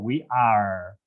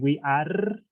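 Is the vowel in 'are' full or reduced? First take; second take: reduced; full. First: It has a reduced, neutral native English vowel. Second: It has a full Spanish-accented vowel.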